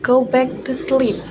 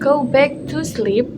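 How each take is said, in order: First: The 'to' is weak and blended into the phrase. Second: Every word is said fully, with a full 'to'. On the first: The speaker calls it right. "native speakers say" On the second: The speaker calls it wrong. "instead of saying"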